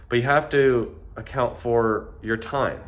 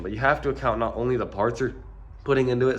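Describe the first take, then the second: First: Said in the usual way. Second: Stuffy blocked-nose voice; congested. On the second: Real, not acted. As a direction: talk through a congested nose. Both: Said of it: "sorry, I'm really congested".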